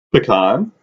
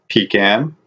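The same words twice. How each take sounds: First: Pecan said "puh-KAHN", stress on the end; Southern pecan. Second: Said in the usual way. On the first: Shown as a demonstration. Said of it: "We don't say pecan". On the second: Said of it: "we're not Southern".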